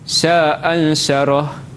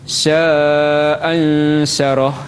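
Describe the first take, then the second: First: The long vowel is held for two beats. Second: The long vowel is held for four beats. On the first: "Jadi dua harakat" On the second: "iaitu dengan empat harakat"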